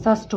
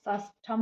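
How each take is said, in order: First: षष्ठ with no ending, said "shashth"; षष्ठ clipped after th; correct form. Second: षष्ठम with an extra "-am" ending; षष्ठम said shashtham; wrong form. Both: Shown as a demonstration. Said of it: "षष्ठ होता है".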